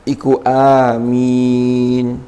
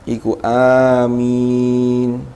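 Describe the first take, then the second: Both takes have the same delivery.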